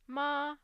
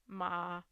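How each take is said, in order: First: The pitch stays high and level. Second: The pitch stays low and level. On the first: "a high and flat F zero" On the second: "the low, um, if it is uh, flat"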